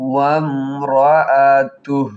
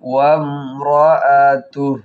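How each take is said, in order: First: The word ends on a bare h sound. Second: The same.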